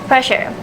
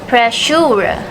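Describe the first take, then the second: First: Two syllables ending in a weak schwa. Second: Three syllables with a long oo vowel. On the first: The speaker calls it right. "the received pronunciation is" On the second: The speaker calls it wrong. "the speaker's pronunciation is"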